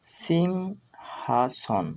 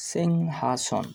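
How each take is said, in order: First: সিংহাসন very slow, in separated syllables; full pronunciation. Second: সিংহাসন joined up as one word, falling; full pronunciation. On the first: Teacher gives the full pronunciation, সিংহাসন drawn out. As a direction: stretch sing, then ha-son in সিংহাসন. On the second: Teacher repeats the full pronunciation, সিংহাসন run together. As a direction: repeat সিংহাসন more fluently, syllables linked. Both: Shown as a demonstration. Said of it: "এর সম্পূর্ণ উচ্চারণ হবে".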